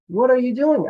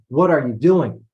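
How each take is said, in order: First: The question is asked in an interested tone. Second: The question is asked in an upset tone. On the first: The asker is simply curious. "in a way that she's just interested" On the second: The asker is annoyed about what is happening. "Meaning, oh, mom's upset"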